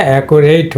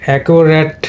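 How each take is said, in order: First: অ্যাকুরেট ending in a gliding "reit"; verb-like "-ate" on the end of অ্যাকুরেট; "eit" ending. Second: অ্যাকুরেট ending in a short "ret"; short unglided vowel closing অ্যাকুরেট; adjective pronunciation. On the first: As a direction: say অ্যাকুরেট as if it rhymed with "eight". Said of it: "এইট sound হতো". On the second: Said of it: "কিন্তু এটা হলো adjective". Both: Shown as a demonstration.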